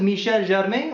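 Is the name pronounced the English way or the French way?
French. The name is pronounced the French way.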